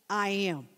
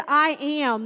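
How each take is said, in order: First: Said in the usual way. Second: Loud, forceful I am; powerful declaration. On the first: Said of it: "he was saying". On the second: Retold or imitated. Preacher voicing Jesus to the soldiers, loud and powerful. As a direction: let the words carry power that knocks men down. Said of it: "there was such power".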